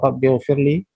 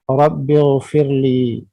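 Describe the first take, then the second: First: The final vowel of firli is clipped short. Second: The final vowel of firli is drawn out long. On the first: It asks forgiveness without referring to the speaker. The speaker calls it wrong. "kita tidak baca panjang, misalnya kita baca cepat saja" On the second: It asks forgiveness for the speaker himself. The speaker calls it right. "panjang pada li karena ada ya sukun"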